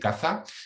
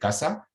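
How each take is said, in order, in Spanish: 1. La consonante del medio es un sonido th. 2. La consonante del medio es un sonido s. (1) "para lo que yo digo casa y caza" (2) "todos ustedes son seseantes, ¿verdad? Dicen casa y casa"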